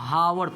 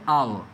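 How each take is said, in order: First: The word begins with an audible h sound. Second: The word begins directly with a vowel sound. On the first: The speaker calls it wrong. "इसको हावर पढ़ता है, जो कि गलत है" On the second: The speaker calls it right. "H होता है silent, इसको पढ़ते हैं आवर"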